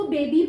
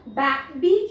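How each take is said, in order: First: बेबी with a long "ay" in the first syllable. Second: बे said as short "ba" as in bat, then बी; short A mispronunciation. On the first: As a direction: say बेबी as "bay-bee". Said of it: "मैंने यहाँ पे इसको बेबी पढ़ा". (बेबी में लंबी ए की आवाज़) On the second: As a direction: break बे, बी in two with a short A. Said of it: "क्यों नहीं पढ़ा". (बे को छोटी "बै" आवाज़ में, फिर बी) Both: Shown as a demonstration.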